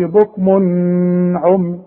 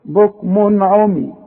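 First: بكم عمي with a long held "n"; wrong ghunna. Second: Slow بكم عمي, clear unheld "n"; no ghunna. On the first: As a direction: hum the tanween of بكم before عمي as a mistake. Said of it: "ما اقولش". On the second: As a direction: pronounce the tanween of بكم crisply before عمي. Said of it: "يبقى ما غنش". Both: Shown as a demonstration.

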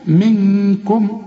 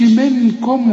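First: Very slow منكم, ن held as a hum before ك; hidden nun. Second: منكم with the tongue striking a full n; wrong hard nun. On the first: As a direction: hide the nun of منكم in a long nasal sound. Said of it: "اخفي". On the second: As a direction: mistaken reading that sounds the ن plainly in منكم. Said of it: "وتضرب لسانك في حلق بقك". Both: Shown as a demonstration.

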